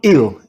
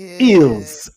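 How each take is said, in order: First: The word ends without any s sound. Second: The word ends with an audible s sound. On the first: The speaker calls it right. "I think it's a silent S" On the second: The speaker calls it wrong. "I'm pronouncing it maybe wrong"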